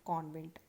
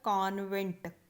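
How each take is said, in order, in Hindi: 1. पहला स्वर गोल 'aw' है। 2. पहला स्वर सीधा खुला 'aa' है। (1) "अगर हमने इसे आगत को डाल दिया" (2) "अगर हम इसके ऊपर आगत ध्वनि नहीं डालते"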